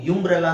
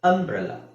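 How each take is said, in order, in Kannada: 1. ಈ ಪದ 'yu' ಶಬ್ದದಿಂದ ಆರಂಭವಾಗುತ್ತದೆ. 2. ಈ ಪದ 'uh' ಶಬ್ದದಿಂದ ಆರಂಭವಾಗುತ್ತದೆ.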